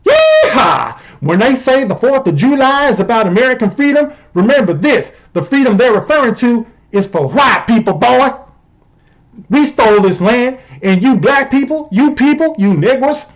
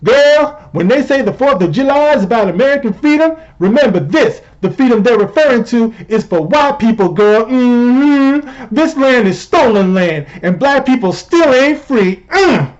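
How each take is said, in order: First: Hammed-up yeehaw Southern accent; mock indignant Southern good-old-boy. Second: High-pitched sassy caricature; exaggerated sassy tweet read-out; mock Cori Bush. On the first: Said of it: "I know that the Southern accent". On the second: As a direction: sass it up high, like an indignant girlfriend. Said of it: "Cori Bush tweeted out, and I quote".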